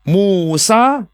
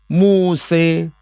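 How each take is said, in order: First: The name ends with an open 'a' vowel. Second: The name ends with a fronted 'e' vowel. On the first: This is the common reading of the name. "kita menyebut Musa alaihissalam" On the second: This is an alternative Quranic recitation reading. "kita membaca Muse alaihissalam"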